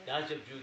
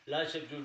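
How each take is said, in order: Both takes have the same delivery.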